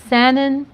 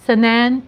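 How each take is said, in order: Both takes have the same delivery.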